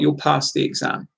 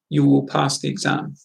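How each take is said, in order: First: You and will are joined into one short syllable. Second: You and will are said as two full words.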